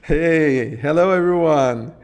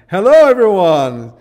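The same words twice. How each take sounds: First: Loud excited hello; raised, upbeat demo greeting. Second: High, very loud excited greeting; whooping hello to the whole crowd; excited shout. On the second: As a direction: belt out a thrilled hello. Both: Shown as a demonstration. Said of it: "Excited voice".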